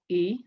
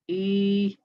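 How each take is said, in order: First: The vowel is held briefly, one count. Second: The vowel is held longer, two counts. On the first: "These are the short vowels" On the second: "I'm doing two counts"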